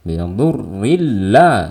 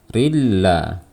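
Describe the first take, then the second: First: The doubled l is said with extra pressure. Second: The doubled l is said plainly without extra force. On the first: The speaker calls it wrong. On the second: The speaker calls it right.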